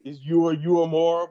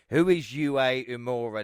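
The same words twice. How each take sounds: First: Uemura said slowly as oo-eh-MOO-rah; Uemura, slow corrected take; corrected name. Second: Imura said slow and unsure as ee-MOO-rah; mispronounced name. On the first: Shown as a demonstration. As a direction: carefully spell out Uemura. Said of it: "you are butchering it". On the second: Real, not acted. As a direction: mangle Imura, stretching it out. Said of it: "did I really just murder that name?".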